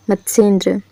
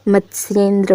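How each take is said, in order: First: मत्स्येंद्र read as mat-sen-dra, no y; मत्स्येंद्र with plain "se" in the middle; misspelt form. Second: मत्स्येंद्र said mat-syen-dra, y sounded; मत्स्येंद्र with "sye" in the middle; correct form. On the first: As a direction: drop the Y glide in मत्स्येंद्र. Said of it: "मत्स्येंद्र होता है". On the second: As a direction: put a clear Y glide after the S in मत्स्येंद्र. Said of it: "होता है". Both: Shown as a demonstration.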